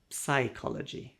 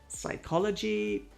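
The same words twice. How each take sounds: First: The word starts with a P sound. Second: The word starts with an S sound. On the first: The speaker calls it wrong. "The most common mistake" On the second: The speaker calls it right. "just ignore the P"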